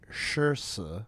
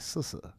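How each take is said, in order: First: The first syllable starts with an 'sh' sound. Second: The first syllable starts with an 's' sound.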